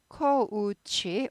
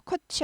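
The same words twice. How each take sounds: First: 코우치 drawn out with an audible u glide; o sliding into u in 코우치; clear ou diphthong. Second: 코치 with a short plain o, no glide; single short vowel in 코치; wrong coach pronunciation. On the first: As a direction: stretch 코우치 so the 우 is heard. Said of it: "오우 발음이에요". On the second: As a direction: say 코치 with the u sound missing. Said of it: "코치 아니고 코우치". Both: Shown as a demonstration.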